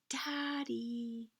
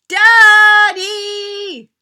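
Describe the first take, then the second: First: It is said very quietly. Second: It is yelled as loud as possible.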